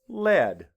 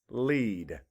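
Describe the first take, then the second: First: The vowel is a short 'eh' sound. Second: The vowel is a long 'ee' sound. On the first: It names the writing material in a pencil. "Sound, eh. Put that together" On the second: It means to guide others. "E A says E instead of eh"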